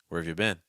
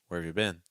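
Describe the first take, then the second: No difference in how they are said.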